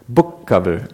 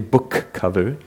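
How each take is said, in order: First: There is no break or puff of air between the two words. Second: There is a break with a puff of air between the two words. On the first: The speaker calls it right. "That's right. Jam them together" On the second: The speaker calls it wrong. "Don't pause. Don't add a puff of air after the first. Don't say book cover"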